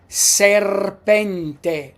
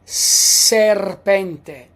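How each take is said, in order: The two takes are said the same way.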